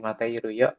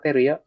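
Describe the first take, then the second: First: The full form keeps the 'i' sound. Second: The 'i' sound is dropped in a contraction. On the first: This is the form usually written. "Biasanya ditulis sih mate iru yo" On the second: This is the more casual spoken form. "kita ngobrol biasanya materi ya"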